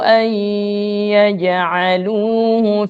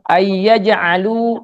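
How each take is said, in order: First: The n merges into y with a nasal hum. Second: The n merges into y without nasal hum. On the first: The speaker calls it right. "diusahakan bacaan nun mati bertemu ya itu didengungkan" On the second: The speaker calls it wrong. "Jangan kita baca"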